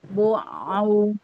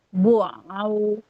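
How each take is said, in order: No difference in how they are said.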